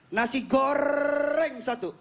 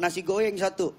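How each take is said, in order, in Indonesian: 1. Bunyi r diucapkan sebagai r. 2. Bunyi r diganti dengan bunyi y. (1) "Dia tiap hari dia belajar nasi goreng" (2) "Jadi Renol nih dia lahir cadel"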